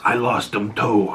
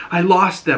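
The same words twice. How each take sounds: First: Lightly voiced son's reply. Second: Higher-pitched imitation of the mother; mother's retort. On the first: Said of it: "he goes". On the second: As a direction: throw it out high, as the mother. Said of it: "she was like".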